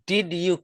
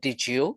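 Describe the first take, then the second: First: The d and y are said separately. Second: The d and y blend into a j sound. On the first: The speaker calls it wrong. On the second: The speaker calls it right.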